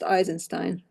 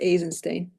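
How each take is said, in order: First: The name is said in a non-Russian way. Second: The name is said in the Russian way. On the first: The speaker calls it wrong. "it's not pronounced Eisenstein" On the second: The speaker calls it right. "it should be pronounced Eisenstein because it's a Russian name"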